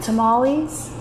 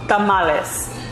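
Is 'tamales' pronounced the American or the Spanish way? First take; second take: American; Spanish. First: Tamales is pronounced with an American English accent. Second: Tamales is pronounced with a Spanish accent. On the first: This is how people say it locally. "Americanizing stuff" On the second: This is not how people say it locally. "they don't say it like that here"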